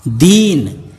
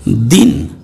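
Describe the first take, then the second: First: दीन with a long, drawn-out ी; long vowel. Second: दिन with a short ि; short vowel. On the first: Teacher reading the word for poor, दीन drawn out. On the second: Teacher reading the word for day, दिन said short. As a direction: keep the vowel in दिन brief. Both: Shown as a demonstration. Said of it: "उसका वाचन मैं आपको".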